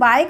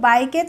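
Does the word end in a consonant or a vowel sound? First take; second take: consonant; vowel. First: The word ends on a k consonant sound. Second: The word ends with an extra vowel sound. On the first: The speaker calls it right. "लेकिन हम बाइक बोलते हैं" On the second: The speaker calls it wrong. "इसको बाइके तो नहीं बोलते हैं"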